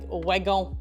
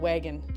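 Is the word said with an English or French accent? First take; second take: French; English. First: The word is said with a French accent. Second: The word is said with an English accent.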